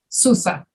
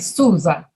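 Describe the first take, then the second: First: The middle consonant is a hissing S sound. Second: The middle consonant is a buzzing Z sound. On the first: The speaker calls it wrong. "You don't say Sousa" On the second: The speaker calls it right. "You say Souza, right?"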